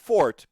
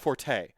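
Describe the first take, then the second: First: The word is said with one syllable. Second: The word is said with two syllables. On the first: People think the speaker is foolish. "It's actually pronounced fort" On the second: It avoids sounding foolish. "people say it's not my forte"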